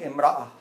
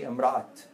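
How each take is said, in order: First: The word ends in a vowel, without a t. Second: The word ends with a clear t sound. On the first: The speaker calls it right. "I say imra'a" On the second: The speaker calls it wrong. "I don't say imra'at"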